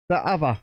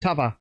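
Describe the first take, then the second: First: Said in the usual way. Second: "T'other" with "the" clipped to a quick t; Yorkshire-style "T'other", fused into one word; northern dialect. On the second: Shown as a demonstration.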